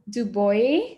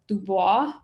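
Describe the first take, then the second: First: The name is said without a French pronunciation. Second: The name is said with a French pronunciation. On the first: The speaker calls it right. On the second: The speaker calls it wrong.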